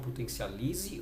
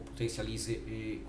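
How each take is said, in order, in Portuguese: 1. O nome termina com um único som de E curto. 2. O nome termina com um som de E duplo, prolongado.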